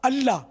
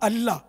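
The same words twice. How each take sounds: Both takes have the same delivery.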